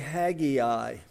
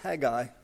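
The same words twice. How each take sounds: First: The name is said with three syllables. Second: The name is said with two syllables. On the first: The speaker calls it wrong. "don't say Haggai. He wouldn't like it" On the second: The speaker calls it right. "It's two syllables"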